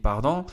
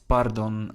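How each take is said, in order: First: It is pronounced the French way. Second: It is pronounced the Dutch way. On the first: "in French, of course, it would be pardon" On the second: "in Dutch, we um, change the pronunciation a little bit"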